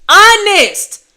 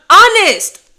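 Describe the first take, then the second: The two takes are said the same way.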